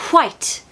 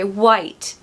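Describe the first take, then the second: First: The W is breathy, with a puff of air. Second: The W is plain, with no puff of air. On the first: This is the old upper-class way of saying it. "the pronunciation of W at the start of the word here is almost blown out" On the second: This is how people say it today.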